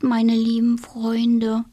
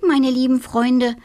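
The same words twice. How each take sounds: First: Slow, murmured goodnight words; drowsy murmur to friends. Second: Louder, bright little witch thanking; little witch warmly calling her friends; grateful little witch. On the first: A narrator's reading. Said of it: "murmelte sie". (langsam gemurmelt) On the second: Acted. (kleine Hexe, laut und dankbar)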